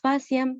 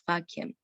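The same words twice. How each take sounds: First: The c is said with a soft s-like sound. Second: The c is said with a hard k sound. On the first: The speaker calls it wrong. "no decimos faciam" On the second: The speaker calls it right. "sino decimos faciam"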